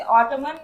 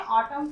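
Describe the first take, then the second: First: "ऑटमन" with an extra n syllable at the end; n wrongly sounded. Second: "ऑटम" stopping on the m; silent n. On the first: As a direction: misread it as "ऑटमन", sounding the written n. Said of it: "इसे ऑटमन नहीं पढ़ते हैं". ("ऑटमन" में न बोलकर गलत उच्चारण) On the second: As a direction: read "ऑटम" without any n. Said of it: "ऑटम पढ़ते हैं". ("ऑटम" में अंत का न मौन) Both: Shown as a demonstration.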